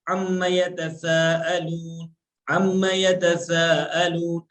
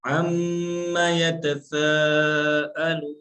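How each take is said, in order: First: Sing-song अम्मा यतसाअलून with no pause on the doubled mim; wrong reading. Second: अम्मा यतसाअलून very slow, the mim of अम्मा held nasal before moving on; correct reading. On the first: Teacher shows students the wrong way to recite, slow sing-song. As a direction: chant अम्मा यतसाअलून straight through, slow and melodic. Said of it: "ऐसे नहीं पढ़ना है". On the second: Teacher shows students the right recitation, slow with a held mim. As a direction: hold the doubled mim in अम्मा, then recite यतसाअलून slowly. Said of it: "यहाँ पे थोड़ा सा रुकना है".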